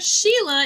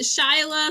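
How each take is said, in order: First: The first vowel sounds like 'she'. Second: The first vowel sounds like 'shy'. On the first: The speaker calls it right. "Sheila is how it's pronounced" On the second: The speaker calls it wrong. "Some people pronounce it Shyla"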